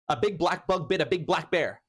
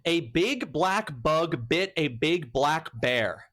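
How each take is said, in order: First: It is said fast. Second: It is said at a normal speed.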